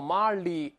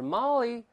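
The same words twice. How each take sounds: First: The L is said with the tongue curled back. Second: The L is said with the tongue pushed forward. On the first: The speaker calls it wrong. "不要往后勾，不要Molly，不是li" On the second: The speaker calls it right. "我们说这舌头得往前伸…而是Molly"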